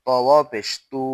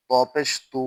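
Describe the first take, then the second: First: তু with a long u; তু held long; stretched vowel. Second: তু with a short u; no stretch. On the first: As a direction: draw out the vowel of তু. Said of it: "ওয়াও থাকলে টান দিব". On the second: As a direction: cut the vowel of তু short. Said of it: "আমরা টান দিব না". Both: Shown as a demonstration.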